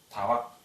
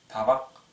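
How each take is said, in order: Both takes have the same delivery.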